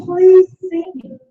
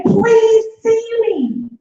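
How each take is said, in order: First: Slow, high plea to be seen; child's plea. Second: High, slow plea to be seen; crying daughter pleading. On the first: Mimicking a child begging her mum to notice her. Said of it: "She's saying". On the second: A scared daughter begging her mum, slow high plea. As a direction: plead like a frightened little girl. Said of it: "she's saying". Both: Retold or imitated.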